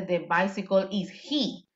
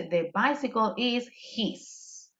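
First: Said in the usual way. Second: Slow, careful teacher model; slow model sentence. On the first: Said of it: "no se dice". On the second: Shown as a demonstration. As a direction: spell it out slowly for the class. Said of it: "Se dice".

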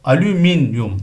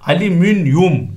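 First: ALÜMINYUM as "a-lü-min-yum"; correct pronunciation. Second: ALÜMINYUM as "alimünyum", vowels swapped; wrong pronunciation. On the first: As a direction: say alüminyum with ü before i. (alüminyum doğru söyleniş, "a-lü-min-yum") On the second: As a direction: say alüminyum with i before ü. (alüminyum yanlış, "alimünyum") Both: Shown as a demonstration. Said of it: "değil".

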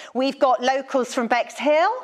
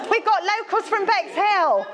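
First: Said in the usual way. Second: Much higher, cheering "Bexhill" to rouse a response; hyping the crowd. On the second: Real, not acted. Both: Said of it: "you let me down".

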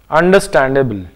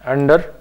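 First: Said in the usual way. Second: "understandable" as under... stand... able, long pauses between; split into parts. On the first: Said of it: "split the pronunciation of a word into parts". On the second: Shown as a demonstration. Teacher demonstrating syllables to learners, "understandable" broken into parts. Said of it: "into parts and then pronounce it".

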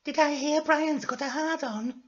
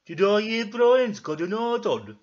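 First: High, thin falsetto character; nosy question in a very high voice; Florence. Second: Loud, drawn-out, high character voice; slow, loud busybody; Ermintrude. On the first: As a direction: put on a high girly falsetto. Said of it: "said Florence". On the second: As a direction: boom out a nosy question, slow and high. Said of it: "said Ermintrude". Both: Acted.

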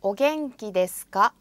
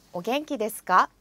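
The two takes are said the same way.

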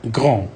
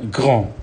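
The two takes are said the same way.

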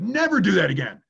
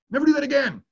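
First: Louder, raised-pitch mock scolding; stern warning. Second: Much higher, louder hammed-up scolding; mock outraged yell. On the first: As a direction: act out an agent laying down the law. Retold agent warns the young man. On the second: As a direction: yell it as an exasperated agent. Repeats agent's warning, escalated.

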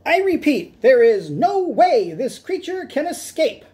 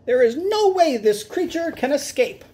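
First: High squeaky insistence, louder; nervous repetition. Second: High squeaky certainty; confident showman. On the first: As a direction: repeat it again, now less sure. Repeats the claim as cat breaks free. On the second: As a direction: promise the crowd it's safe, squeaking. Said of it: "Doctor Varmint told the crowd". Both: Acted.

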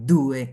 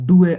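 First: Right way, dental d; Italian due. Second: "ডুয়ে" with a hard English-style d, louder; wrong way, hard d; wrong retroflex due. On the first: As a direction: say "দুয়ে" tongue on teeth, the correct Italian way. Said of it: "আমরা কি বলি?". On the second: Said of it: "ডুয়ে আমরা বলি না". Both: Shown as a demonstration.

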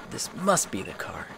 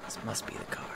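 First: Said in the usual way. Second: Whispered, breathy under the breath; hushed aside. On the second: Shown as a demonstration. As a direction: whisper it to yourself. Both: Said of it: "repeated take".

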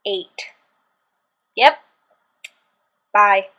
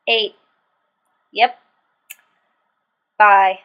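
The two takes are said the same way.

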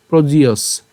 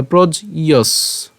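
First: "প্রজিয়স" run together, the ইয় said through the nose; joined nasal sound. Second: "প্রজ ইয়স" slow, in two pieces with a gap after প্রজ; split into parts. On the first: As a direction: join "প্রজিয়স" as one word with a nasal ইয়. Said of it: "ইয়টাকে আমরা নাকে উচ্চারণ করছি". ("প্রজিয়স" একসাথে, ইয় নাকে) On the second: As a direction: break "প্রজ" away from "ইয়স". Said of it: "এখানে একটা ইয় আছে". ("প্রজ ইয়স" ধীরে দুই ভাগে ভেঙে) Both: Shown as a demonstration.

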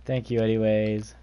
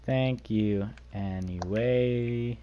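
First: Said in the usual way. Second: Very slow "anyway", stretched long; drawn-out thanks. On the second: Pretend. Streamer repeating thanks to a viewer, slowly drawn out.

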